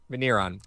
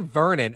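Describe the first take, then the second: First: The name is said as Veneron. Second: The name is said as Vernon. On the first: The speaker calls it right. "I think so" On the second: The speaker calls it wrong. "I don't think that's actually how you pronounce that last name"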